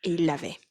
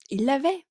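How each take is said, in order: First: Said in the usual way. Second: Higher, rising with delight; excited repeat. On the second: Real, not acted. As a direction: savour the good news, rising at the end. Répète la bonne nouvelle, ravie. (« l'avait » monté, ravie)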